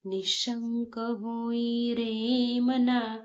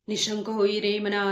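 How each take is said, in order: First: It is recited slowly and calmly. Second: It is recited very fast and hurried. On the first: The speaker calls it right. "असं खूप शांततेत म्हणायचं आहे" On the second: The speaker calls it wrong. "खूप घाई-घाईत ... fast fast म्हणताय. असं करू नका"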